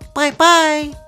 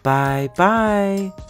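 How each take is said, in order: First: It is said in a high, squeaky voice. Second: It is said in a middle-sized voice.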